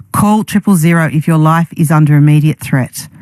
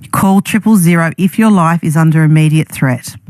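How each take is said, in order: The two takes are said the same way.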